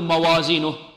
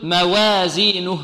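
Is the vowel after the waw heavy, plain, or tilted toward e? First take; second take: heavy; tilted. First: The waw and its vowel sound heavy and dark. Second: The vowel after the waw leans toward e. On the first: "لا نقول موازينه" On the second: "فيقول موازينه لا، هذه إمالة"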